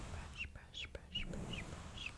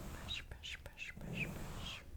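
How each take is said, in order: Both takes have the same delivery.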